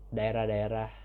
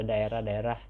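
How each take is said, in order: Both takes have the same delivery.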